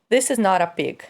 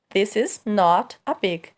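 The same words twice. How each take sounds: First: Spoken fast, the t of not joins a. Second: Spoken at normal speed, words kept separate.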